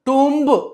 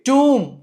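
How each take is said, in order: First: A b sound is heard at the end. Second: The word ends on m, with no b. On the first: The speaker calls it wrong. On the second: The speaker calls it right.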